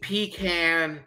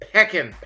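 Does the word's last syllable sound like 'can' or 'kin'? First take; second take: can; kin. First: The last syllable is a full 'can' sound. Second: The last syllable is a short 'kin' sound. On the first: The speaker calls it wrong. "Don't say a pecan, pecan, pecan, or whatever" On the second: The speaker calls it right. "That's how we say it. It's pecking. P-E-K-I-N"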